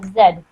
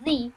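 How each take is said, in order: First: The letter is said with the Canadian pronunciation. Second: The letter is said with the American pronunciation. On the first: "Canadians pronounce it as Z" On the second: "Americans pronounce the letter Z like Z"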